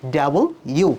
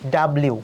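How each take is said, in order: First: The letter is said as two words, double u. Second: The letter is said as two quick syllables, dablu. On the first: The speaker calls it right. "ডাব্লিউ এর প্রোনাউন্সটা হবে ডাবল ইউ" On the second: The speaker calls it wrong. "উচ্চারণ করো ভুল"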